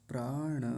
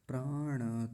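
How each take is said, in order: The two takes are said the same way.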